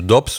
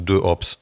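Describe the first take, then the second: First: The vowel of de is dropped, giving one syllable. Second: De is said in full before an aspirated Hops. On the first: "s'ils disent Dops" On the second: "je prononçais toutes les voyelles, toutes les consonnes"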